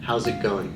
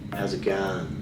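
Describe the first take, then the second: First: It is said in a neutral standard accent. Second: It is said in a broad Australian accent. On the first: "you would say" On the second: "where I come from in Sydney, the accent is different"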